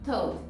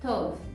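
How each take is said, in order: Both takes have the same delivery.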